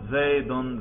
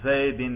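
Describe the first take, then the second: First: The word ends in the vowel u plus n. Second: The word ends in the vowel i plus n. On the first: The word is in the nominative case. "ذرا اس کے رفع پہ تلفظ کرو" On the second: The word is in the genitive case. "ذرا اس کے جر پہ تلفظ کرو"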